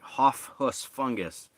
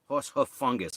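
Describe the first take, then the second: First: The first word is jumbled into hoff. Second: The first word comes out clearly as horse.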